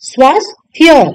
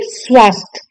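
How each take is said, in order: First: स्वास्थ्य as "swaas-thya"; correct ya ending. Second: स्वास्थ्य ending at "swaasth"; wrong dropped ya. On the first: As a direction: sound the final ya of स्वास्थ्य. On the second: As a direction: drop the final ya of स्वास्थ्य. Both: Shown as a demonstration. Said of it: "ना कि".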